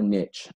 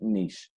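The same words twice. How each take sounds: First: The word is said in a Southern pronunciation. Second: The word is said in a general pronunciation.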